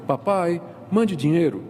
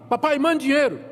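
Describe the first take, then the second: First: It sounds like a gentle plea. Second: It sounds like a harsh demand.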